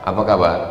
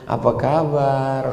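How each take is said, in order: First: It is said curtly, in clipped words. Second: It is said in a soft, gentle voice.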